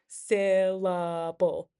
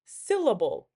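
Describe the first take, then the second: First: "Syllable" slowly drawn out in three beats; split into syllables. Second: Said in the usual way. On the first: Shown as a demonstration. Teacher showing three syllables, slow and separated. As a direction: sound out "Syllable" slowly, one syllable at a time. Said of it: "Three syllables". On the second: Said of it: "Let's do the word".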